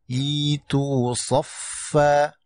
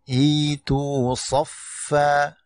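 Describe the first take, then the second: The two takes are said the same way.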